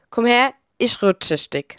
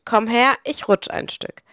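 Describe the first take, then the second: First: Pfälzisch dialect saying; Palatinate dialect. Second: Said in the usual way. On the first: Shown as a demonstration. Narrator quoting a saying that sums up Palatinate life, in Pfälzisch dialect. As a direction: say it in broad Palatinate German. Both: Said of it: "Auf Hochdeutsch".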